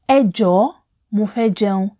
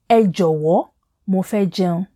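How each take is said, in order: First: The word for please is short, without a w sound. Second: The word for please is full, with a w sound. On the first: "저 is much easier and it flows naturally" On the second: "And 에조워"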